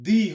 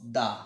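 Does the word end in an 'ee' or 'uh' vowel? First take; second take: ee; uh. First: The word ends in an 'ee' vowel. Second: The word ends in a short 'uh' vowel. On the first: The next word starts with a vowel. "কোনো এটা ৱাৰ্ড যদি vowel লেটাৰে আৰম্ভ হয় তেনেহলে কি হ'ব" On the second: The next word starts with a consonant. "কোনো এটা ৱাৰ্ড যদি কনসনেন্ট লেটাৰেৰে আৰম্ভ হয় তেন্তে ইয়াৰ উচ্চাৰণ কি হ'ব"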